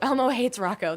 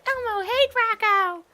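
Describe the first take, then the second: First: It is said in the speaker's normal voice. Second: It is said in a high-pitched Elmo voice.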